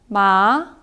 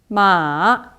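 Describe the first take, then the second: First: The pitch rises from middle to high. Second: The pitch dips low, then rises. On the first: "이성은 올라가는 소리입니다" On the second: "삼성은 중국어에서 가장 낮은 음을 찍고 올라오는 소리입니다"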